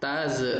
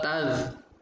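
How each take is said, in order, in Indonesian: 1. Konsonan akhir memantul dengan gema. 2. Konsonan akhir ditahan tanpa pantulan. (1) "Biasanya yang salah bacanya"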